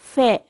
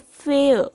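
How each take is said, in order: First: The word is said in a British accent. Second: The word is said in an American accent. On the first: "if a ब्रिटिशर will say this word it will be like" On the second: "एक American इसी word को बोलेगा"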